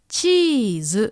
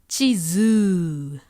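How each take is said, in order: First: The first vowel is lengthened, not the last. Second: The last vowel is lengthened, not the first. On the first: The speaker calls it right. "It's stretching the E sound" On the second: The speaker calls it wrong. "It's stretching the wrong vowel sound"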